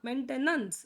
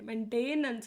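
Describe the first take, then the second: First: The middle syllable is a short 'ten'. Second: The middle syllable is a stretched 'tay'. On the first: The speaker calls it right. "ಮೇಂಟೆನೆನ್ಸ್ ಅಂತ ಬರುತ್ತೆ" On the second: The speaker calls it wrong. "ಮೇಂಟೇನೆನ್ಸ್ ಅಂತ ಬರಲ್ಲ"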